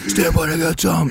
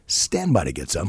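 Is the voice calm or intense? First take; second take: intense; calm. First: It is said in an intense, urgent voice. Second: It is said in a calm, relaxed voice. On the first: The danger is treated as alarming. "when you should be like" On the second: The danger is treated as routine. "just in a real calm voice"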